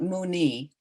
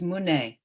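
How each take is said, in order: First: The word ends with an 'ee' vowel. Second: The word ends with an 'e' vowel. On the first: The speaker calls it wrong. "it's not muni" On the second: The speaker calls it right. "It's mune"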